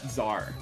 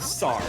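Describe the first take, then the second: First: The word begins with a z sound. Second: The word begins with a ts sound. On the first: The speaker calls it wrong. "not Czar" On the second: The speaker calls it right. "the correct way of saying Sar is Sar"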